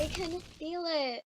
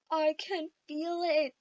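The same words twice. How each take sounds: First: Said in the usual way. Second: Mock despairing. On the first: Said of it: "I told everyone in the car". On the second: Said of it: "I'd look down and go".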